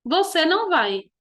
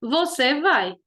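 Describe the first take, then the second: First: "Você não vai" stated with "não" prominent, falling; statement tune, weight on "não"; negative declarative. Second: "Você vai" as a falling statement; simple statement tune on "Você vai"; affirmative declarative. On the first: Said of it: "afirmando ou negando". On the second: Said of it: "Tô afirmando". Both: Shown as a demonstration.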